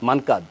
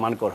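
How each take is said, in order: First: The name ends with a d sound. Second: The name ends with an r sound. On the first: This form follows the English spelling. "ইংলিশটা তো M A N K D" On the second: This is how the name is said in India. "উচ্চারণটা ইন্ডিয়াতে মানকর হয়"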